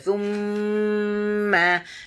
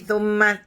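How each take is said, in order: First: The m is held long and nasal. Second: The m is cut short without nasal hold. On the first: The speaker calls it right. "Mesti bunyi thumma berlari di dalam hidung kita" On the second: The speaker calls it wrong. "Dia tak boleh tak boleh bunyi thumma terus itu"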